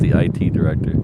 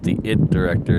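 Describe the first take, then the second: First: IT is said as the two letters I-T. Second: IT is said as the single word 'it'. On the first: It is the usual name for the job. "not the I T director" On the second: It is a joke on the title of the movie. "he called it the it director"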